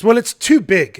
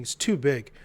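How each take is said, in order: First: Loud, higher-pitched mock objection; objecting. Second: Said in the usual way. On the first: Gallery director objects to the artist's painting, loud objection. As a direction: imitate her objecting, loud and emphatic. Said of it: "she begins to object". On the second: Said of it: "She begins to object".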